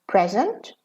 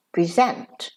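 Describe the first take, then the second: First: "Present" stressed on PREZ, short ending; noun stress. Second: "present" stressed on ZENT, quick "pri"; verb stress. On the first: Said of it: "as a noun". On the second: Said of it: "and as a verb". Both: Shown as a demonstration.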